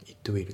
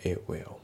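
First: "It will" as Japanese-style itto wiru; fully sounded T. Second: "A will" as it will with no T; dropped T. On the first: Teacher showing learners what to avoid in It will, T sounded. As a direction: sound the T of "It" separately before "will". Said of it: "じゃなくて". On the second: Teacher correcting the fully sounded It will, dropped T. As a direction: leave the T out and glide into "will". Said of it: "イットのTが抜けますね". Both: Shown as a demonstration.

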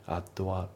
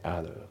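First: Addは as "addo a"; katakana-style addは, vowel added after the D; unlinked words. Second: OTHER said as joined "ad-a"; no break after the D in OTHER; linking. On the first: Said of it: "じゃなくて". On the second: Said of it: "リンキングで". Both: Shown as a demonstration.

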